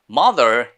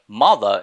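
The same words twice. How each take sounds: First: It is said with an American accent. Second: It is said with a British accent. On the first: "is in American" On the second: "is in British"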